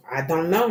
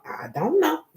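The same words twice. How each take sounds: First: Said in the usual way. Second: "I don't know" squeaked up high, much higher; high-pitched I don't know. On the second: Real, not acted. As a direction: toss it off in a sudden high squeak. Shrugging off a reading.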